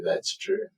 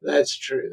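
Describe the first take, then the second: First: Breathy whispered aside. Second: Said in the usual way. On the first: Real, not acted. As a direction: drop to a whisper. Agreeing, then repeats it softly.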